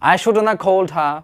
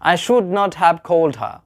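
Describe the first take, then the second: First: It is said as one short contracted word. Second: It is said as two separate full words.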